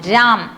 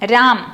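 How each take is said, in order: Both takes have the same delivery.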